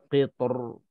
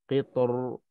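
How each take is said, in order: No difference in how they are said.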